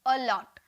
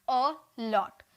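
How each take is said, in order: First: Said in the usual way. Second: "अ लॉट" broken after अ into two beats; two separate syllables. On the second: Shown as a demonstration. Teacher showing two syllables in "अ लॉट", each sounded separately. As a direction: say अ, pause, then लॉट in "अ लॉट". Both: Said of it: "दो sound निकल रहा".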